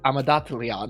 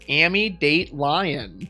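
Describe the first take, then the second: First: The name is said in a guessed native way. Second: The name is read literally, letter by letter. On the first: The speaker calls it right. "which is probably like" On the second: The speaker calls it wrong. "I'm going to purposely mispronounce this, but I'm just going to say it how it reads"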